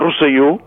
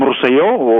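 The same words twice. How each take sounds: First: The final stressed vowel sounds like u. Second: The final stressed vowel sounds like o. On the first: "nosaltres fem en U" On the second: "habitualment se pronuncien O"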